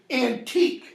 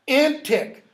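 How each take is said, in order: First: The word sounds like 'antique', ending in 'teek'. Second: The word sounds like 'antic', ending in 'tick'. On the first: It is the modern reading, meaning really old. "we say antique, meaning really old" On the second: It is the older pronunciation, meaning frantic or jumpy. "Notice how I'm pronouncing that. That is the pronunciation that would have been close to Shakespeare's"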